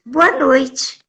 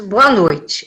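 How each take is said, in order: First: Lightly voiced airy, clueless woman; a hint of dreamy innocence; retold absent-minded actress. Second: Lightly voiced policeman, lower greeting; a hint of a policeman's businesslike greeting; low, matter-of-fact mock policeman; retold policeman. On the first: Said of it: "tava sempre no ar". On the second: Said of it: "o policial saltou e disse".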